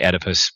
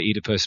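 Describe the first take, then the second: First: The first syllable has a short 'eh' vowel. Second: The first syllable has a long 'ee' vowel. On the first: This is the American way of saying it. "Americans say Oedipus" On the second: This is the English and Irish way of saying it. "English and Irish would say Oedipus"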